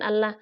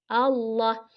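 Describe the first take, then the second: First: The L is pronounced light and thin. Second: The L is pronounced heavy and full. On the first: The speaker calls it wrong. "bukan Allah" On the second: The speaker calls it right. "tapi Allah be dengan lafadz jalalah ya"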